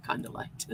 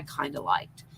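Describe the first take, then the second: First: Softer, laughing repeat; real laugh at your own understatement; amused aside. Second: Said in the usual way. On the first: Real, not acted. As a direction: chuckle through the words.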